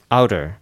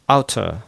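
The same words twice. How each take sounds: First: The t is a quick flap like d. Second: The t is pronounced as a clear t. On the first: "outer のように変化します" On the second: "outer というのが"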